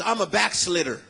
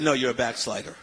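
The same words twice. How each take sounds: First: "backslitter", with a short i for the long one; mispronounced backslider. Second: Said in the usual way. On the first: Retold or imitated. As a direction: say "backslitter" with slit in place of slide.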